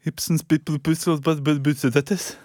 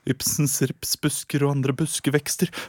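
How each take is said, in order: First: The phrase comes out garbled and unclear. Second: The phrase comes out crisp and clearly articulated. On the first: The speaker has a speech impediment. The speaker calls it wrong. "du har skikkelig talefeil" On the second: The speech impediment has been cured. The speaker calls it right. "Det aldri klart å si noe så klart før"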